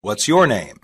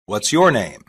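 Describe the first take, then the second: No difference in how they are said.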